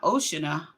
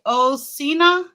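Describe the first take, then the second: First: Oceania said as "OH-shuh-nuh"; rejected pronunciation. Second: Oceania said as "oh-SEE-nuh", questioning; unsure pronunciation. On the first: Streamer ruling out a guess, saying Oceania as "OH-shuh-nuh". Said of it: "It's not Oceania". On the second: Streamer who doesn't know what it says, guessing "oh-SEE-nuh" for Oceania. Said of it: "I don't know what that say". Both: Real, not acted.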